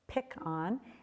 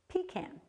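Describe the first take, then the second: First: It is said the Texas and Louisiana way. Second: It is said the northern New England way. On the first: "in Texas and Louisiana" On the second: "if you're from Vermont or uh, these northern New England states"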